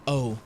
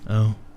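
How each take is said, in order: First: It is said in the speaker's normal voice. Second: It is said imitating D's voice.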